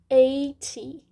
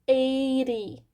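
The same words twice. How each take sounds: First: The middle consonant is a clear t. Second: The middle consonant sounds like a quick r.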